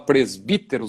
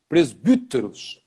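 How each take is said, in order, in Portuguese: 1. A segunda vogal é um 'ee' com os lábios esticados. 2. A segunda vogal é um 'u' francês arredondado. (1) "a gente fala presbíteros" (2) "é o mesmo U do francês, que é o, seria com um bico"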